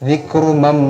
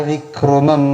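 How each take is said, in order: Both takes have the same delivery.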